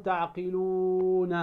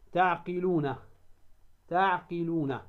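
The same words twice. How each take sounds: First: تعقلون with the "luu" stretched far too long; wrong demo of تعقلون, uu held well past two counts; overlong vowel. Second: تعقلون with the "uu" held only two counts; correct short madd. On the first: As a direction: drag out the waw in تعقلون before "na". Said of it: "فلا تقول تعقلون، هذا خطأ". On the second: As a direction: say تعقلون with a measured long waw, ending on "na". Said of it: "حركتين فقط". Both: Shown as a demonstration.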